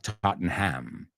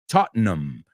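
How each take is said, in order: First: The final syllable is a full 'ham'. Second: The final syllable is reduced to 'um'. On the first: The speaker calls it wrong. "not Tottenham" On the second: The speaker calls it right. "Ese ham para los británicos es um"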